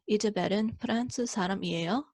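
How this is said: The voice rises at the end. It asks whether she is French. "you raise your tone at the end"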